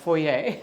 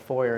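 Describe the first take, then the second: First: It is said with a French pronunciation. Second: It is said with an English pronunciation. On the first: The speaker calls it right. "the proper French foyer" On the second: The speaker calls it wrong. "pronouncing foyer as a foyer"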